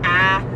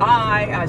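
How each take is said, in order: First: The word is said in a Southern accent. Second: The word is said in a plain accent. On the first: "I say ah" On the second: "Instead of saying I"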